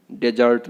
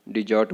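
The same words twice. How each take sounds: First: डेजर्ट with "de" and a sounded r; wrong pronunciation. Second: डिजर्ट with "di" and silent r: di-jut; correct pronunciation. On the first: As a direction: say डेजर्ट as "de-jart". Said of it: "डेजर्ट नहीं बोलना है". (डेजर्ट में ए और र साफ़) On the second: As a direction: say डिजर्ट without the r. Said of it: "आर जो है silent है". (डिजर्ट में र चुप) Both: Shown as a demonstration.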